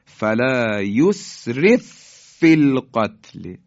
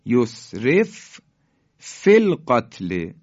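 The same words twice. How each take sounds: First: فلا یسرف فی القتل joined through one doubled f; merged f. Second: یسرف فی القتل slowly, stopping on the first f; unmerged f. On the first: Teacher demonstrating how the letters merge, firm joined f. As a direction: recite فلا یسرف فی القتل slowly, louder, pressing into the held f. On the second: Teacher showing the still f before merging, separated f. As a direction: say یسرف, pause, then فی القتل with its own f. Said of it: "ف ساکنه". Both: Shown as a demonstration.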